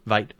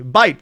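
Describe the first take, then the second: First: "vite" with a V in place of B; slip of the tongue. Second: "Bite" with a firm B at the start; corrected word. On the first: Reactor trips over the word, saying "vite" with a V. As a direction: stumble onto "vite", low and soft. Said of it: "I can't speak today". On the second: Reactor finds the word, "Bite" said with a clean B. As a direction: land on "Bite" slowly, with a clear B. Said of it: "that's the word". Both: Real, not acted.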